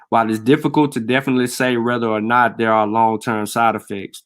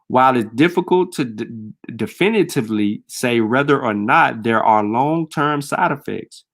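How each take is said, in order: First: It is said at a normal speed. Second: It is said slowly.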